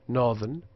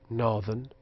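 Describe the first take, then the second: No difference in how they are said.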